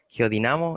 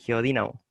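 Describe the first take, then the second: First: The stress falls on the syllable na. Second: The stress falls on the syllable di. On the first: This is the form the group uses. "nosotros le decimos geodinamo" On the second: This form would need a written accent. "si fuera geodínamo sería drújula"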